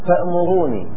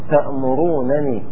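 First: Only one short single n sound is pronounced. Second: Two separate n sounds are pronounced one after another. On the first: "حذف إحدى النونين" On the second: "نونين بالفك نفك النونين"

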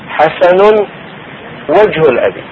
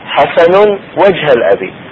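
First: The word wajh ends in a u vowel. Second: The word wajh ends in an a vowel. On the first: The noun is in the nominative case. "مرفوع" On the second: The noun is in the accusative case. "منصوب"

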